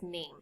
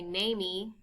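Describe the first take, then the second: First: Name in one syllable, the final E silent; correct pronunciation name. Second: Namey with an added ee ending, nay-mee; wrong pronunciation namey. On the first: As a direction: say name with a long A and no sound at the end. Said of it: "it's just name". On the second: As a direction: say namey in two syllables, the final E sounded as ee. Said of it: "We don't say namey". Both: Shown as a demonstration.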